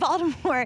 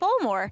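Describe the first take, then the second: First: It is said in a neutral, standard accent. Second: It is said in a local Baltimore accent.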